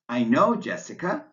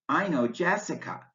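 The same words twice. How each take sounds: First: The voice keeps rising at the end. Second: The voice rises then falls at the end. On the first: The person is being addressed by name. "rising intonation because you're saying Jessica's name at the end of your statement" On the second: It is a simple statement about knowing her. "rising falling intonation because you're making a simple statement"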